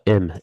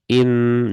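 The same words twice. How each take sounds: First: The vowel is not a clear 'i' sound. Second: The vowel is a clear, short 'i' sound. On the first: The speaker calls it wrong. "not im. Im is going to be incorrect" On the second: The speaker calls it right. "You want to make sure the kasra sound is clear"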